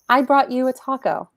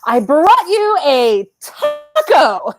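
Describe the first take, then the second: First: It is said warmly, reaching out to connect. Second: It is said freely, in a liberated way.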